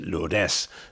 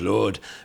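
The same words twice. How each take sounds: First: The name is pronounced with local Dutch sounds. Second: The name is pronounced with French sounds. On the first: "here they pronounce it Lourdes" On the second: "the French pronunciation is Lourdes"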